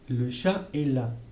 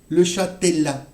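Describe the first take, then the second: First: Chat and est are not linked by a T sound. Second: Chat and est are linked by a T sound. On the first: The speaker calls it right. "on va prononcer le chat est là" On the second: The speaker calls it wrong. "On ne peut pas entendre"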